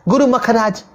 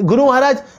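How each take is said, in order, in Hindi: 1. बीच का व्यंजन कठोर kh ध्वनि है। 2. बीच का व्यंजन साधारण h ध्वनि है।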